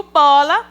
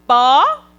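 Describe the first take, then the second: First: Said in the usual way. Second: "bola" split into "bo", long pause, then "la"; syllables said separately. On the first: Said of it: "eu juntei as duas sílabas". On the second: Shown as a demonstration. Teacher showing children what a syllable is, "bola" said as separate "bo" and "la". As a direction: break "bola" into two isolated syllables. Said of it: "separadamente, eu vou ter uma sílaba".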